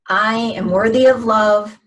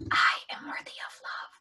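First: It is spoken in a full voice. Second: It is whispered.

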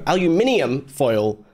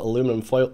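First: It is said in a non-American accent. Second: It is said in an American accent. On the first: The speaker calls it right. "I ain't no American" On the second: The speaker calls it wrong. "I said it in an American accent"

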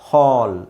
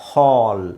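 Both takes have the same delivery.

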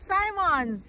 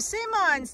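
First: The first vowel is a long i sound. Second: The first vowel is a short i sound. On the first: The speaker calls it wrong. "not Simons" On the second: The speaker calls it right. "Since there's two M's, it shortens the I"

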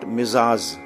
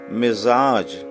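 First: A z comes first, then another z. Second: A z comes first, then a j. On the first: The speaker calls it wrong. "Not Mizaz" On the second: The speaker calls it right. "This sound should be very carefully pronounced"

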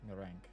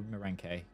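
First: The name ends on a consonant sound. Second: The name ends with an added vowel sound. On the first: The speaker calls it wrong. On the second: The speaker calls it right. "I would say with the A, it would be a Meranke because it's older"

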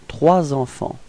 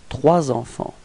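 No difference in how they are said.

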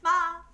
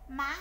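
First: The syllable has a level, fairly high tone. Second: The syllable has a rising sắc tone. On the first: "Dấu ngang là không dấu, nó hơi cao lên" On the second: "Dấu sắc thì khi mà chúng ta nói dấu sắc thì cái cổ của chúng ta phải dướn lên"

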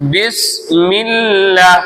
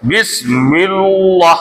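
First: The L is light and thin. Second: The L is heavy and full-mouthed. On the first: The speaker calls it right. "அப்படிதான் ஓதுவோம்" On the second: The speaker calls it wrong. "எப்படி ஓகக்கூடாது?"

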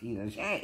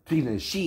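First: The last syllable sounds like 'shay'. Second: The last syllable sounds like 'shee'. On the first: This is the name as the person calls herself. The speaker calls it wrong. "Not Tina Shay. It's not spelled right to be Tina Shay" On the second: This is the name as the speaker chooses to say it. The speaker calls it right. "I call her Tina She"

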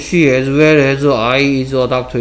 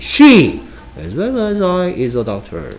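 First: It is read straight through without grouping. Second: 'As well as I' is set apart by pauses.

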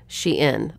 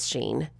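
First: The name is said as two syllables, she-in. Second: The name is said as one syllable, sheen. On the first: This is the company's official pronunciation. "like she is in style" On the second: This is how most people commonly say it. "everyone I've ever heard pronounce this company name says Shein"

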